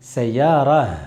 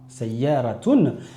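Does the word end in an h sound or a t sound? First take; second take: h sound; t sound. First: The word ends with a soft h sound. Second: The word ends with a t sound plus ending. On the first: The speaker stops at the end of the phrase. "le ta marbuta va se transformer en ha sakin" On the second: The speaker continues into the next word. "j'ai bien prononcé le ta marbuta à la fin"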